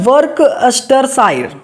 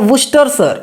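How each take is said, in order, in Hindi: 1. हर अक्षर बोला जाता है, जैसा लिखा है वैसे। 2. छोटा किया जाता है, बीच के शब्दांश छोड़कर। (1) "गलत, मैं खुद गलत पढ़ रहा हूँ" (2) "इसको क्या बोला जाएगा"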